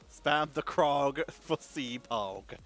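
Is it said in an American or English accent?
American. It is said in an American accent.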